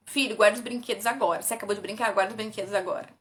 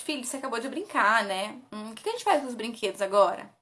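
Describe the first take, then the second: First: Commanding. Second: Gentle question. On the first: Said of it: "ao invés de você falar assim". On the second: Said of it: "Não, pergunte". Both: Shown as a demonstration.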